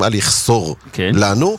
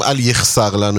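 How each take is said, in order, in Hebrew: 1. התנועה אחרי ה-s היא o. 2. התנועה אחרי ה-s היא פתח, a. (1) "יש כאלה שהוגים" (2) "עם פתח"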